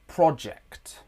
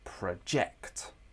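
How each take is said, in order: First: The stress is on the first syllable. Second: The stress is on the second syllable. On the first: It is the noun. "in the noun version of the word project, the word stress is on the first syllable" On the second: It is the verb. "In the verb form of the word project, the word stress is in the second syllable"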